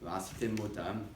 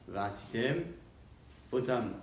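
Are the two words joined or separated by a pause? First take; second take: joined; pause. First: The words run together without any pause. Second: A clear pause separates the two words. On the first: It sounds like a word meaning their death. The speaker calls it wrong. "Si jamais une personne rapproche ces deux mots" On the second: It means doing the thing. The speaker calls it right. "découper la lecture de ces deux mots"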